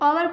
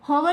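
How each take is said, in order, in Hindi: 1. शब्द की शुरुआत स्वर की ध्वनि से होती है। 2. शब्द की शुरुआत एच की ध्वनि से होती है। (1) "ओवर पढ़ते हैं" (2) "होवर इसको नहीं पढ़ते"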